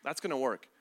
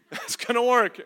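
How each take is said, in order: First: Said in the usual way. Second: Louder, higher, laughing disbelief; laughing sarcasm. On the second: Shown as a demonstration. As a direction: scoff through a laugh.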